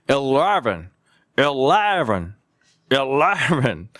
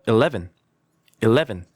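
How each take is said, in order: First: "eleven" drawn out as "el-laaar-ven"; mock a teacher's overblown "eleven"; exaggerated mispronunciation. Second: "eleven" short, as "i-LEH-vn"; easy model "eleven", no curled tongue; light, correct pronunciation. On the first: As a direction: overdo the tongue curl and wide vowel in "eleven". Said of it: "이렇게 발음하면 안 돼요". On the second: Shown as a demonstration. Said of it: "살짝 하는 게 더 있어 보인다".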